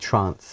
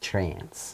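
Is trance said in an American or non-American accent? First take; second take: non-American; American. First: It is said in the speaker's own non-American accent. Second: It is said in an American accent.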